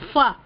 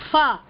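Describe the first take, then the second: No difference in how they are said.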